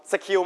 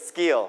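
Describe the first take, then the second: First: "skill" said sa-khiu, puff on the k; aspirated k. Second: "skill" with k like Thai ก; unaspirated k. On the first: Teacher testing the wrong "skill", k aspirated. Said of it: "ไม่ก็เป็น skill". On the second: Teacher giving correct "skill", k unaspirated. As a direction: say "skill" as s-gil, no puff on the k. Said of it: "เป็นเสียงเกอ". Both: Shown as a demonstration.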